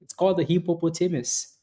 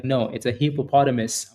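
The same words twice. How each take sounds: First: Hippopotamus as hippo-po-TAY-mus, higher; own pronunciation. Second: Hippopotamus the standard way, stress on POT; correcting pronunciation. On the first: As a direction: insist on hippopotamus with a long "tay". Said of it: "I grew up saying it like that". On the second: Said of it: "They're like". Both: Retold or imitated.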